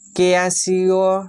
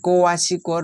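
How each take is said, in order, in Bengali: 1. শব্দটি 'keyasio' হিসেবে উচ্চারিত হয়। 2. শব্দটি 'koyashiko' হিসেবে উচ্চারিত হয়।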